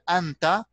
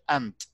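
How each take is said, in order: First: The word ends with a final vowel sound. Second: The word ends on a consonant, vowel dropped. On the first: The speaker is continuing the sentence. "here, anta" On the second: The speaker is stopping at this word. "but when we stop, we say ant"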